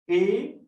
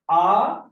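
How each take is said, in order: First: The letter is named as in English. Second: The letter is named as in French. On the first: "this is their pronunciation in English" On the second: "And in French, how we will going to pronounce?"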